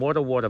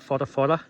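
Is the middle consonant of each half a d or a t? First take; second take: d; t. First: The middle consonant sounds like a d. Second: The middle consonant sounds like a t. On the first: The speaker calls it wrong. "I keep saying Wada Wada" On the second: The speaker calls it right. "I think you actually pronounce it Whata Whata"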